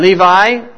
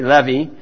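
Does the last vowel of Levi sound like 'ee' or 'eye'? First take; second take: eye; ee. First: The final vowel sounds like 'eye'. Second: The final vowel sounds like 'ee'.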